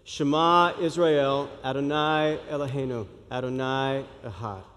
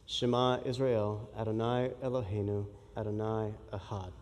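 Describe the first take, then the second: First: It is said more slowly. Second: It is said at a normal pace.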